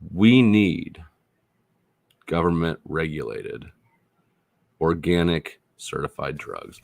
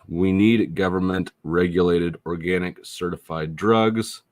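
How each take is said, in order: First: It is spoken at a noticeably slower pace. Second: It is spoken at a normal, quicker pace.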